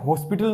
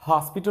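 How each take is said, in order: First: The first vowel sounds like 'o'. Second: The first vowel sounds like 'aa'. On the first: The speaker calls it wrong. "हॉस्पिटल नहीं होता है" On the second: The speaker calls it right. "हॉस्पिटल होता है"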